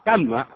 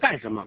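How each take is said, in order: First: It is said in the local dialect, shortened. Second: It is said in standard Mandarin. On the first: "这叫干么去" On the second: "干什么不叫干什么"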